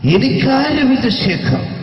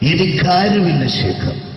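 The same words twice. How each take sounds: First: The line is delivered in an exaggerated, heavy manner. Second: The line is delivered in a toned-down, restrained manner. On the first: The speaker calls it wrong. "ഈ ടൈപ്പല്ല ഉമ്മർക്ക" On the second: The speaker calls it right. "ശരിക്കും സിനിമയിൽ ഉപയോഗിച്ച ശൈലി ഇത്ര അത്ര ഇല്ല, ഇങ്ങനെയാണ്"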